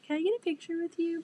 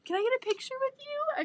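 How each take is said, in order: First: Mock lame request. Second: "Can I get a picture with you?" squealed much higher; fangirling. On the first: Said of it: "that's such a lame thing". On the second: Retold or imitated. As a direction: ask it like a starstruck fan. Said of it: "I was fangirling".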